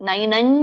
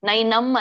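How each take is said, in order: First: The final nasal is a closed m sound. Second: The final nasal is a closed m sound.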